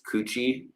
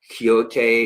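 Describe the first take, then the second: First: The name is said like 'Coochie'. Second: The name is said like 'Quixote'. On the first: "the way a lot of people would pronounce it" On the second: "is how you say his name"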